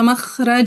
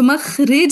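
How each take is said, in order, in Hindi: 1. दूसरे शब्दांश में 'a' स्वर है। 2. दूसरे शब्दांश में 'i' स्वर है। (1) "मखरज होता है" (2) "सो मखरिज नहीं होता"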